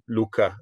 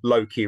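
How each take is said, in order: First: The name is said the Old Norse way. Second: The name is said the familiar English way. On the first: The original form may confuse the audience. "rather than Udin, Luka" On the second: The familiar form helps the audience follow. "Or Odin, Loki"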